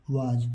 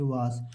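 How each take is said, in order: First: वाज with a voiced final j; correct reading. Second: वास with a final hissed s; common misreading. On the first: Teacher showing children the English reading, वाज ending in j. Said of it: "यहाँ पर पढ़ेंगे इसको अंग्रेजी में". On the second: Teacher showing pupils' misreading, वास ending in s. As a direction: read वास ending in an s sound. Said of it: "यहाँ पर वास नहीं लिखा है, बहुत लोग पढ़ेंगे वास". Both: Shown as a demonstration.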